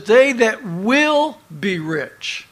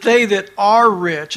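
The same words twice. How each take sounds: First: "will" stretched slow and strong; stress on "will". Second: "are" stressed as the mistaken wording. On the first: Preacher gives what the verse says, with long stress on "will". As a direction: hit and hold "will", then finish "be rich". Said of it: "you need to underline that word will". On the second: Preacher corrects a misread verse, putting stress on "are". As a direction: lean on "are" to mark the contrast. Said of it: "So it's not saying that". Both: Shown as a demonstration.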